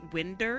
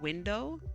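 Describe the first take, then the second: First: The word is said in a Midwestern dialect way. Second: The word is said in the standard way.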